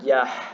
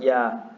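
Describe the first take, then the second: First: The final h sound is clearly breathed out. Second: The final h sound is nearly silent. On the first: "I'll say it like with like a ha though" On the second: "You probably can't even hear me say it"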